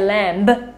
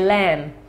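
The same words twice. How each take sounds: First: The final b is pronounced. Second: The final b is not pronounced. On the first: The speaker calls it wrong. "it's a silent B. We don't say lamb" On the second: The speaker calls it right. "We say lamb"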